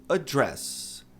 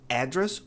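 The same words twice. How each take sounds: First: "address" as a-DRESS, stressed on DRESS; weak first vowel, punch the end of "address"; second stress option. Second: "address" as AD-dress, stressed long A; long first vowel. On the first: Teacher gives other noun option, end-stressed word. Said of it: "Tem duas maneiras de pronunciar". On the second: Teacher gives noun option, front-stressed word. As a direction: lean on the first syllable of "address". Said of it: "mas é longo". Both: Shown as a demonstration.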